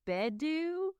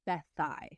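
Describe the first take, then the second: First: The middle consonant is a hard 'd' sound. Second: The middle consonant is a soft 'th' sound. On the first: The speaker calls it wrong. "I was like, they lived in Bedu" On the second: The speaker calls it right. "it is pronounced Bethai"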